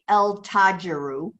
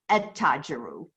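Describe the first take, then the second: First: The L of the article is clearly pronounced. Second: The L blends into a doubled T sound. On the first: The speaker calls it wrong. "you don't say el tajiru" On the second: The speaker calls it right. "you say et tajiru"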